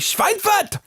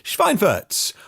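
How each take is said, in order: First: It is said in an exaggerated German accent. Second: It is said in a plain English accent.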